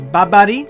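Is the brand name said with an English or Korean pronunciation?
Korean. The name is said with Korean-style pronunciation. This is how the name is said in Korean. "that's the problem is the pronunciation because it's Babari"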